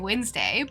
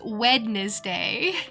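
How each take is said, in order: First: It is said the usual spoken way. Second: It is said the way it is spelled. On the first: The speaker calls it right. "I know how to say Wednesday" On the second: The speaker calls it wrong. "seeing it written, it's Wednesday"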